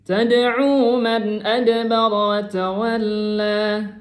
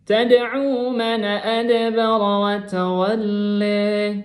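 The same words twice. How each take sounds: The two takes are said the same way.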